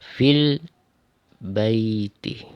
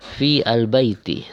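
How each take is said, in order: First: The 'a' of the article is dropped and linked. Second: The article 'al' is said as a separate syllable. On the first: The speaker calls it right. "cara bacanya langsung ... tanpa membaca alif" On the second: The speaker calls it wrong. "dibaca terpisah ... salah"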